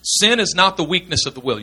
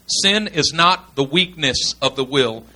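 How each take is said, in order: First: Said in the usual way. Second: Slow and deliberate, word by word; slow, emphatic repeat. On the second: Real, not acted. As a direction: spell out the key point slowly. Repeats slowly after "gotta get this.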